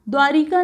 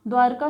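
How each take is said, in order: First: द्वारिका with an added i, "dwaa-ri-kaa"; wrong-form demo. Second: Said in the usual way. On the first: Shown as a demonstration. Teacher rejecting the wrong form, द्वारिका with extra middle i. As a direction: put a short i before the k in द्वारिका. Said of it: "द्वारिका नहीं होता". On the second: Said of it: "सही शब्द होता है".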